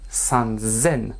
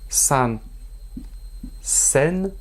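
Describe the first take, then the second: First: The second part starts with a z sound. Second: The second part starts with an s sound. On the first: The speaker calls it right. "attention à la prononciation" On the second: The speaker calls it wrong.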